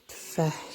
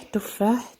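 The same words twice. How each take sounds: First: تفاح as a soft tfah, no first vowel; Moroccan pronunciation. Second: تفاح as tu-FAH, higher and rising; standard Arabic pronunciation. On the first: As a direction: say "تفاح" with t straight into f, quietly. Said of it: "عندنا تفاح". (نطق تفاح بالمغربية، بتسكين التاء) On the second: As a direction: give "تفاح" its full u after the t. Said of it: "زي اللغة العربية". (نطق تفاح بالفصحى، بضم التاء) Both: Shown as a demonstration.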